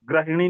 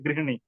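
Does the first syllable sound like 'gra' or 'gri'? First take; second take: gra; gri. First: The first syllable sounds like 'gra'. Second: The first syllable sounds like 'gri'. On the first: The speaker calls it wrong. "ग्रहिणी नहीं होता" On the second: The speaker calls it right. "गृहिणी उच्चारण भी शुद्ध करना है"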